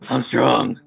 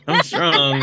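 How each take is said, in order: First: It is said in a gravelly Batman voice. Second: It is said in his normal voice.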